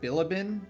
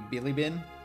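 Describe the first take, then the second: First: The i vowels are read the English way. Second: Every i is a sharp ee sound, Japanese style. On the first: "in English, it should be like Bilibin" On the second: "like Japanese, like direct translations, ... you would pronounce every I as like a um, a sharp I"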